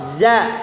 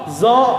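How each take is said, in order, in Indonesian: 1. Huruf ini tipis, suaranya dijaga rendah. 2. Huruf ini berat, dengan vokal o yang membulat. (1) "Ti, tipis. Yang dimana bacanya suaranya turunin ke bawah" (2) "Nggak boleh baca zo"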